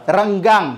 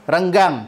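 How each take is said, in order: The two takes are said the same way.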